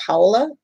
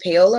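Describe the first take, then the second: First: "Paola" said as POW-la; alternative name pronunciation. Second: "Paola" said as pay-OH-la; first name pronunciation. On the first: Host checking a viewer's name, "Paola" as POW-la. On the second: Host checking a viewer's name, "Paola" as pay-OH-la. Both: Shown as a demonstration. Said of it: "is it Paola or Paola?".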